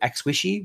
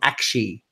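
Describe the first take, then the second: First: The name sounds like 'a squishy'. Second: The name sounds like 'ak' then 'shee'. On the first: "the way you pronounce it is not as in a hug, like ex, uh, Axwishy" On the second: "It's called Akshi. so it's like A K and then she"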